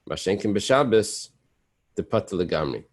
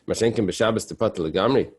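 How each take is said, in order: First: It is read flatly, like a statement. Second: It is read with a questioning tune. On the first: It asserts the case. The speaker calls it wrong. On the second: It challenges the case. The speaker calls it right.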